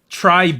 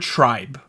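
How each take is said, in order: First: It is said with a Korean-style pronunciation. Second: It is said as the plain English word. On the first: "Tribe is the Korean way to pronounce it" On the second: "it looks like the word tribe"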